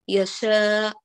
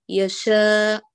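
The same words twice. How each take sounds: Both takes have the same delivery.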